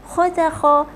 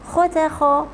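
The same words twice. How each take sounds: Both takes have the same delivery.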